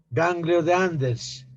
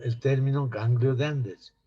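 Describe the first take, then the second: First: Ganglio de Anders spelled out slowly, each word separate; slow model term. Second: Said in the usual way. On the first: Shown as a demonstration. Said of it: "saben el, el término ganglio de Anders".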